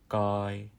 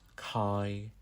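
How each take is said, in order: First: The first consonant has no puff of air. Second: The first consonant has a puff of air. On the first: The speaker calls it right. "It's an unaspirated C" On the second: The speaker calls it wrong. "It's not kai"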